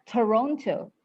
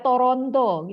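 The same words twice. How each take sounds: First: It is pronounced with English sounds. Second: It is pronounced with Indonesian sounds. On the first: The speaker calls it right. "Tapi dibaca Toronto" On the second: The speaker calls it wrong. "nggak baca Toronto gitu"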